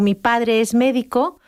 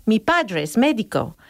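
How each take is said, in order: First: "Mi padre es médico" with even syllable-timed beats; "Mi padre es médico" said slowly with every syllable equal; Spanish rhythm. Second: "Mi padre es médico" stressing pa and mé, slowly; "Mi padre es médico" with beats on pa and mé; English rhythm. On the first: Teacher shows how a Spanish speaker says "Mi padre es médico", evenly timed. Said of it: "como lo diría yo en español". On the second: Teacher shows an English speaker's stress-timed "Mi padre es médico". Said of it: "en inglés ellos dirían". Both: Shown as a demonstration.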